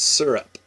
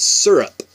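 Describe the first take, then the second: First: Syrup said sur-up; local pronunciation. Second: Syrup said sur-up, louder; local pronunciation. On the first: Explaining to viewers her sur-up. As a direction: syrup with the r-colored sur-up vowel. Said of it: "It's supposed to be syrup, but it's syrup". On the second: Showing the local sur-up with a laugh coming. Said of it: "It's supposed to be syrup". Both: Shown as a demonstration.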